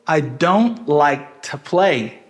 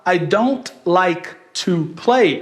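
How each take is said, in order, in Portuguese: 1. A palavra to é reduzida a um t rápido. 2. A palavra to é pronunciada com a vogal completa. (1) "o u de to já sumiu" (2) "ao invés de eu falar"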